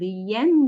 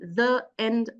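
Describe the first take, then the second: First: A y glide joins the two vowels smoothly. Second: The two vowels are separated with a break. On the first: The speaker calls it right. "you have to link it with the following vowel using the Y consonant" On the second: The speaker calls it wrong. "here you are breaking the flow of your speech"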